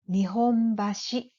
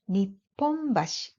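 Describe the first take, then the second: First: The middle consonant is a soft h sound. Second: The middle consonant is a doubled p sound. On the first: This is the place name used in Tokyo. "The one in Tokyo is pronounced" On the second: This is the place name used in Osaka. "it is pronounced Nipponbashi in Osaka"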